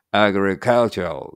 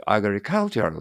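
First: "agricultural" driven by stress rather than melody; English-style pronunciation. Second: "agricultural" with Japanese-style pitch movement; Japanese-style pronunciation. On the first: Teacher contrasting English with Japanese intonation, English-style pronunciation. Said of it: "音程全然関係ない". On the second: Teacher showing learners the Japanese-sounding version, Japanese-style pronunciation. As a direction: say "agricultural" as a Japanese speaker would, with melodic pitch. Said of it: "なんか日本語的にな". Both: Shown as a demonstration.

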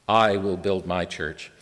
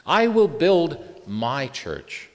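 First: Slow, low "I will build my church", evenly weighted; lowered, unhurried "I will build my church", settling at the end; measured restatement. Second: Very slow, with "my" set apart after a pause; drawn-out declaration, "my" standing on its own; emphatic word stress. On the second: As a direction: raise "will build", pause, then land deliberately on "my church". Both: Shown as a demonstration. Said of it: "let's emphasize each word as we go".

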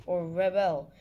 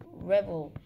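First: Rebel with stress on the second syllable, full bel. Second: Rebel with stress on the first syllable, second vowel reduced. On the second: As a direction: say rebel as the noun, RE-bul. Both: Shown as a demonstration. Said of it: "What is the correct pronunciation for".

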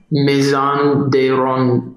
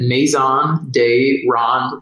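First: Maison de Ronde said the French way, slow, nasal ronde; French pronunciation. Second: Maison de Ronde said slowly, American style, MAY-zon day RAWN; American pronunciation. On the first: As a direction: say Maison de Ronde slowly as a French speaker would. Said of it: "I think that's how you say it in French". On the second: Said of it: "I'm just gonna say it in a classic American accent". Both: Shown as a demonstration.

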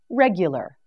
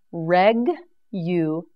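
First: Said in the usual way. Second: "Reg-u-lar" split slowly into three separate syllables; "Regular" broken into its syllables, slow and clear. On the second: Shown as a demonstration. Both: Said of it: "Reg-u-lar".

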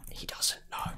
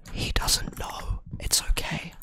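First: Hushed unvoiced whisper. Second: Slow, soft whisper. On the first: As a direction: whisper it to yourself. Whispering to himself mid-fight. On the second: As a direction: breathe it out slowly. Slow whispered self-reassurance. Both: Real, not acted.

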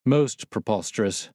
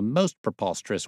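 First: Mild exclamation, a little punch on "Most"; exclaimed. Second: Said in the usual way. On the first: A narrator's reading. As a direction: exclaim it as an emphatic echo. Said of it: "I exclaimed". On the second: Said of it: "said he".

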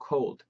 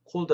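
First: "cold" carefully pronounced as the model; corrected cold. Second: "cold" as the faulty take to avoid; mispronounced cold. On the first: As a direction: show learners the proper "cold". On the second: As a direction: show learners the mistaken "cold". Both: Shown as a demonstration. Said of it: "cold 아니고 cold".

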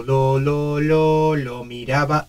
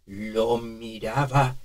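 First: Put-on very old man. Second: Put-on trembling, slow, soft old man; shaky old man voice. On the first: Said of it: "estábamos en esta frecuencia". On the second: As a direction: let the voice tremble. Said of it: "y ahora vamos a temblar". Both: Shown as a demonstration.

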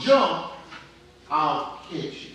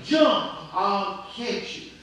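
First: Short raised call on Jump, then settling; retold yell. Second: Insistent retold yell. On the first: Preacher voices a dad calling to his son on the roof, mild retold yell. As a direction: mildly imitate a father calling out. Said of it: "his dad yells to him". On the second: Preacher voices a dad who keeps calling to his trapped son, insistent yell. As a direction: imitate a father calling up more urgently. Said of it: "his dad kept yelling".

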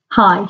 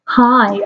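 First: Said in the usual way. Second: Lightly flirty greeting. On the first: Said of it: "he said". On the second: A narrator's reading. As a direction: draw it out a little, mock flirtatious. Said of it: "I replied flirtily".

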